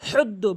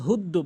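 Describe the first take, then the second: First: The h is made deep in the throat. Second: The h is a plain, light h sound. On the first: The speaker calls it right. "হলকের মাঝখান থেকে উচ্চারণ করতে হবে" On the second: The speaker calls it wrong. "অর্থ চেঞ্জ হয়ে যায়"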